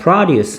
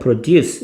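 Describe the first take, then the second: First: The stress is on the first syllable. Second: The stress is on the second syllable. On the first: It is a noun meaning farm goods. "produce 하면은 농산물이란 뜻이야" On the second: It is a verb meaning to make something. "produce 이렇게 duce의 강세가 있지만"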